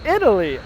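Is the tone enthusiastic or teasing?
enthusiastic. It is said in a positive, approving tone.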